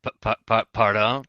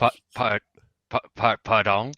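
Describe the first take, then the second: First: Put-on French accent. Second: Stammered, hammed-up French pardon; hammy stage actor. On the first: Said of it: "your accent just left". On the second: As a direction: ham up a stuttering French pardon. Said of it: "Now you're really hamming it up".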